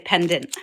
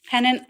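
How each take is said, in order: First: The middle d sound is clearly pronounced. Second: The middle d sound is left out. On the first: "sometimes I say pendant" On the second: "Sometimes I say pennant"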